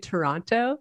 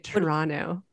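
First: The second t sound is clearly pronounced. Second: The second t sound is dropped. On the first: The speaker is not from the city. "when you guys say it, you say Toronto" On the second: The speaker is from the city. "You say Toronto. The second Toronto. T is"

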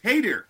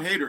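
First: The name sounds like 'hey there'. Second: The name does not sound like 'hey there'. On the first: The speaker calls it right. "It's Hader. ... they go, hey there" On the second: The speaker calls it wrong. "It's not Hader"

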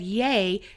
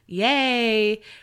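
First: The word is said short. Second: The word is said long and drawn out.

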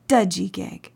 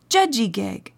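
First: The word begins with a d sound. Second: The word begins with a j sound. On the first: "some people pronounce the word dudjigig" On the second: "the Mi'kmaq word for healthy is judjigig"

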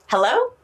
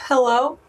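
First: It is said in a happy tone. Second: It is said in a sad tone.

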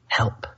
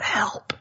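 First: It is spoken aloud in a normal voice. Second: It is whispered very quietly.

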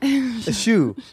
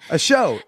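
First: The vowel sounds like 'oo' as in shoe. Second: The vowel sounds like 'oh' as in show. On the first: The speaker calls it wrong. "It's not a shoe" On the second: The speaker calls it right. "That's how you say it"

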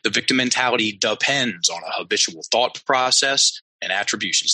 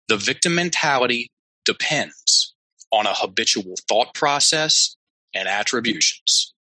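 First: It is said at a faster pace. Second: It is said at a slower pace.

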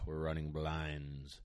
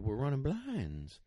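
First: It sounds reluctant and unhappy. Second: It sounds excited and upbeat. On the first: The dog does not want to work. "Does she look happy or does she look like, ugh" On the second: The dog is eager to work. "she's like, oh, hey"

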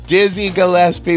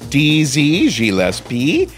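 First: The name is said in a plain accent. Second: The name is said in a French accent.

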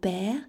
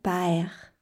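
First: The vowel is a single plain sound. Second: The vowel glides like a diphthong.

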